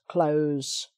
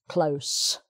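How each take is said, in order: First: The word ends with a buzzing z sound. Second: The word ends with a hissing s sound. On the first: It is the verb meaning to shut. "for the verb to close" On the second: It is the noun meaning a little street. "with an S"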